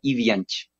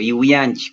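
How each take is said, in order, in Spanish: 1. El sonido después de la primera i es una b suave. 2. El sonido después de la primera i es una w. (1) "se lo pronuncia en Achuar, que es como con B pequeña" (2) "si es que se lo lee en español, sería como Iwianchi, como le estás pronunciando"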